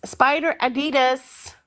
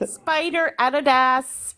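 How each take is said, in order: First: Slow "Spider Adidas" with dee in the middle; other pronunciation. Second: Slow "Spider Adidas" with stress on first syllable; Aussie pronunciation. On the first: Aussie repeats it for confused Americans, slow "Adidas" as a-DEE-das. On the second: Aussie clears up what was misheard, slow "Adidas" as AD-i-das. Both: Shown as a demonstration. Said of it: "My spider in her ass".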